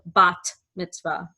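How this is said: The first word ends with a T sound. This is the modern Hebrew pronunciation. "In modern Hebrew, we pronounce both of these letters as T"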